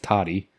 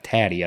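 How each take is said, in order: First: The first vowel sounds like the one in 'cot'. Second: The first vowel sounds like the one in 'cat'. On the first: The speaker calls it right. "I think it's Toddy" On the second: The speaker calls it wrong. "I don't think it's uh, Taddy"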